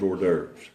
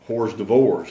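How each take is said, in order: First: The word is said the usual way. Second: The word is sounded out as spelled. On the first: The speaker calls it right. "I had no idea it was" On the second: The speaker calls it wrong. "I once thought it was"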